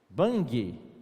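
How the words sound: It is said with a Brazilian Portuguese accent. The speaker calls it wrong. "A pronúncia brasileira é"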